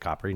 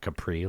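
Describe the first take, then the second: First: It is said like the Italian island's name. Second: It is said like the name of the pants. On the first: It refers to the island itself. The speaker calls it right. "pronounce it Capri" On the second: It is the common, unrefined way to say it. The speaker calls it wrong. "not Capri, like you plebs ... pants"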